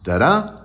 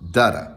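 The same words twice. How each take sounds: First: "Da-da" as da-DA, higher and rising; iambic stress. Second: "Da-da" as DA-da, falling away; trochaic stress. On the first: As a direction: lift the second beat of "Da-da". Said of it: "is an iamb". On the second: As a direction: hit the first beat of "Da-da" and drop the second. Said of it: "apple is a trochee". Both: Shown as a demonstration.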